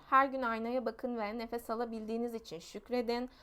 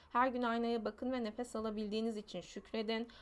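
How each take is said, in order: The two takes are said the same way.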